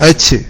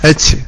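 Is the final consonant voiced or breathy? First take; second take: breathy; breathy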